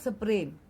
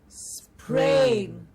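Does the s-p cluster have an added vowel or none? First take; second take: added vowel; none. First: A vowel sound breaks up the opening cluster. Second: The opening cluster is fused with no vowel. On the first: The speaker calls it wrong. "not sprain" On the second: The speaker calls it right. "there are no breaks, there are no other vowel sounds"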